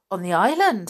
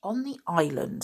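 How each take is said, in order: First: Said in the usual way. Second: Understated sulky reply. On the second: A narrator's reading. George answers her angry father, sulky. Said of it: "looking rather sulky".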